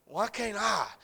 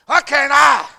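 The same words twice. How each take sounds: First: Said in the usual way. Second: "Why can't I?" yelled high and loud; loud, high cry of "Why can't I?"; shouted question. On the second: Acted. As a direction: hurl "Why can't I?" out in protest. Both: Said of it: "repeated question, second shouted".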